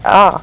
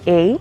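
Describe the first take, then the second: First: The letter is named with a Spanish vowel sound. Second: The letter is named with English vowel sounds.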